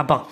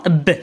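First: با opened into "ba". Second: ب as a bare "ebb" with sukun; ب closed, without an a after it; B read alone. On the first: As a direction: blend b and a into one syllable, با. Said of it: "معاه كيتقرا با". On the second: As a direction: stop ب on the consonant, no full vowel. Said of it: "وبوحدو كيتقرا ب". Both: Shown as a demonstration.

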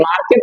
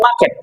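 First: Said in the usual way. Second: "মার্কেট" said "maaket", no R before the k; British silent R. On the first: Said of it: "আমরা বলি". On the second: Shown as a demonstration. Teacher showing students British market, "মার্কেট" without the R. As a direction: say "মার্কেট" with a long open first vowel replacing the R. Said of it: "তারা বলে".

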